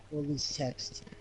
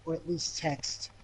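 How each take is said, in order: Both takes have the same delivery.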